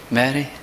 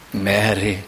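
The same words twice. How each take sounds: First: "Mary" asked with a rising, puzzled tune; questioning Mary. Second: "Mary" said low and soft, falling gently; tender Mary. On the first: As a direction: say "Mary" as if unsure, lifting at the end. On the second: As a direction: call "Mary" softly and lovingly, lower and softer. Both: Shown as a demonstration. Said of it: "How do you say it?".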